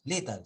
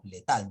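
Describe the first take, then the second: First: "letal" stressed on the first syllable, LE; "letal" said as LÉ-tal. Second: "letal" stressed on the last syllable, TAL. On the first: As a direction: punch LE in "letal", weak ending. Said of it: "no decimos, no leemos". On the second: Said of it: "sino letal". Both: Shown as a demonstration.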